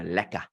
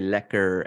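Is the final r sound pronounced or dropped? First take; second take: dropped; pronounced. First: The final r sound is dropped. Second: The final r sound is clearly pronounced. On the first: This is how English South Africans say it. "we don't go the r... we just go lekker" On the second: This is how speakers in the Netherlands say it. "the people from the Netherlands say lekker, and then they actually r"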